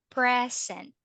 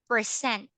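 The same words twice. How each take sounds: First: It is pronounced the way the noun is. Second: It is pronounced the way the verb is. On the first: It means a gift. The speaker calls it right. "if you are referring into the noun, you say it quite like this" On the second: It means to perform or show something. The speaker calls it wrong. "when you say it that way, present. Present in English, it means to perform"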